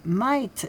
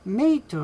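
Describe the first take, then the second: First: The vowel sounds like 'eye', as in 'bite'. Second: The vowel sounds like 'ay', as in 'day'.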